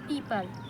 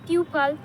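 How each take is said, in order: First: The first vowel sounds like the 'ee' in peep. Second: The first vowel sounds like the 'u' in pupil. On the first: The speaker calls it right. "they will say people" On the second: The speaker calls it wrong. "instead of saying pupil"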